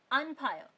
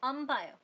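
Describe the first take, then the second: First: अनफायर with a distinct n before ph; careful slow reading. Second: अम्बायर with n turned into m; assimilated sound. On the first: Teacher shows slow reading, अनफायर keeping the n. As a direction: separate an from phayo in अनफायर. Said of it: "आप उसे धीरे धीरे बोलोगे". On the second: Teacher explains consonant assimilation, अम्बायर with m. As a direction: close the lips on m in अम्बायर. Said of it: "consonant assimilation की वजह से". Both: Shown as a demonstration.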